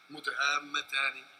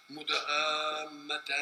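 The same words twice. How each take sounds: First: مدهامتان slow, final n voweled as -aani; connected ending. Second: مدهامتان slow, stopped on a vowelless final n; pausal ending. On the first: Teacher showing the word built on connection, joined ending. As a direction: recite مدهامتان as mudhaammataani, flowing into the next verse. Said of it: "مبني على الوصل". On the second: Teacher showing how you say it when stopping, pausal ending. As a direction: recite مدهامتان drawn out, ending dead on -aan. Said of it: "أنت لما تقف تقول كده". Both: Shown as a demonstration.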